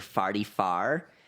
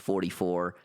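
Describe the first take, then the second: First: The vowels sound like 'far'. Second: The vowels sound like standard 'for'. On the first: "you would say" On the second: "a normal person would say"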